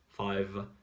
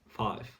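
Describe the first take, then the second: First: The final sound is a voiced V. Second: The final sound is a voiceless F. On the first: The speaker calls it right. "pronounce as well the V sound, like with the vibrations" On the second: The speaker calls it wrong. "they pronounce it like an F"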